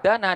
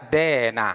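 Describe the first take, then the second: First: The first vowel is an open a sound. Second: The first vowel is tilted toward an e sound.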